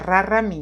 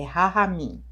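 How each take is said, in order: First: The middle consonant is a strong R. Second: The middle consonant is a breathy H. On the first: The speaker calls it wrong. "como eu puxo muito R, então eu, eu já falaria Raramim, mas não é" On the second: The speaker calls it right. "é Rahamim"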